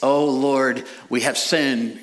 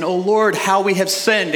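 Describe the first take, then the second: First: Said in the usual way. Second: Higher, louder mock cry of repentance. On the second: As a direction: wail the confession a little theatrically. Mimicking repentant Israel again.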